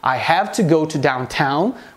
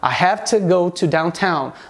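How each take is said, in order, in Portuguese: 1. As duas palavras são pronunciadas completamente e separadamente. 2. As duas palavras são reduzidas e ditas juntas.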